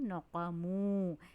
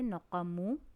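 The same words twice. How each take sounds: First: The vowel is stretched for one extra beat. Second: The vowel is kept short with no stretching. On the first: The speaker calls it right. "मैं इसे पढ़ रही हूँ नक़मू" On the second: The speaker calls it wrong. "मैंने इसे नक़मू नहीं पढ़ा"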